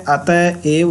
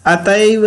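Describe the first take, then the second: First: अतएव said slowly in two parts, atah-ev; slow, careful अतएव with the ev set apart; correct split form. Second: अतएव run together as one word, atev; quick, merged अतएव; wrong form, run together. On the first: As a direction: separate अतएव into ata and a long ev. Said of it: "अतएव होता है". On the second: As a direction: say अतएव joined up, with no break after ata. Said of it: "अतएव नहीं होता है". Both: Shown as a demonstration.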